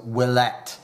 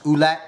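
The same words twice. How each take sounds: First: Willette said as "will-ETT"; French pronunciation of Willette. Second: Oulette said with an "oo" start, no W; Americanized Oulette. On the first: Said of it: "in French is pronounced Willette". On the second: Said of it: "It might be pronounced". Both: Shown as a demonstration.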